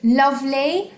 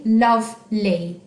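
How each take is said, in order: First: Said in the usual way. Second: "Lovely" as two beats, love, ly; teacher counting out both syllables of "Lovely"; split into syllables. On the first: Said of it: "how many syllables were in the word lovely". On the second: Shown as a demonstration. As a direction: break "Lovely" between love and ly. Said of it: "two syllables in lovely".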